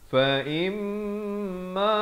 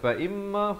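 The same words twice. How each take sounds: First: The nasal m sound is held for two counts. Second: The nasal m sound is short. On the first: The speaker calls it right. "Mestilah ... Dua harakat di sini" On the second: The speaker calls it wrong. "Jangan baca fa imma, fa imma, itu tak tak sempurna"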